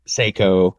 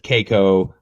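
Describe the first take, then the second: First: The first syllable sounds like 'say'. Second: The first syllable sounds like 'kay'. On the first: "everybody says just like you said" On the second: "everybody says just like you said"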